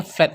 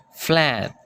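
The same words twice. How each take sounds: First: Said in the usual way. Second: Flat with a British open a, flaat; British accent. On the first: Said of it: "kalau kita kan biasanya flat saja". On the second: Shown as a demonstration. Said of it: "kalau orang Inggris dia akan mengatakan". (aksen British pada flat)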